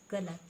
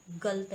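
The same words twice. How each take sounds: First: गलत with all three syllables; correct full word. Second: गलत said as "गल्त"; wrong clipped word. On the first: Teacher giving the correct गलत, all vowels said. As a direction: say गलत fully, ga-la-t. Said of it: "ये क्या होता है?". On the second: Teacher showing the mistaken गलत, middle vowel dropped. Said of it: "ये गलत नहीं होता". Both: Shown as a demonstration.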